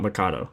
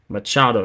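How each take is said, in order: First: The middle consonant is a k sound. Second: The middle consonant is a ch sound. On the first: The speaker calls it wrong. "I keep saying it wrong" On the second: The speaker calls it right. "Machado, not Mikado"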